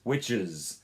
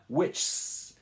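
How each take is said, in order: First: The ending has a short vowel before it. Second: The ending has no vowel before it. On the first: The speaker calls it right. "you're including a little bit of a vowel in there" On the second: The speaker calls it wrong. "it's not which"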